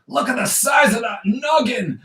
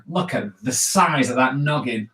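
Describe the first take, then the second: First: High, shouted mock villain voice; hammed-up villain boom. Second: Said in the usual way. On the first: Shown as a demonstration. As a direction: shout it out like a cartoon baddie.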